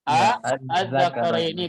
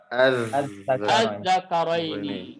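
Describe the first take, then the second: First: A separate short vowel comes before the word. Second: The word starts directly with no separate vowel.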